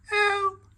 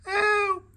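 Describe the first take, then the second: First: A very high cry for help; yell. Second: A very high, falling cry of help; yell again. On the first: Frightened mole on a branch, high yell for help. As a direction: yell it from up the tree. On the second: Frightened mole stuck in tree, high falling yell. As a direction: call down from the branch. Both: A narrator's reading. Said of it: "he yelled".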